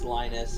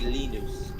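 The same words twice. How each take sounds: First: The name is said the American way. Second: The name is said the Finnish way. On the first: "in America it's" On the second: "if you were to say my name in Finnish, it would be"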